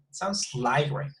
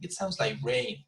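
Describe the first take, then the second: First: The word rain is not stressed. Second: The word rain is strongly stressed.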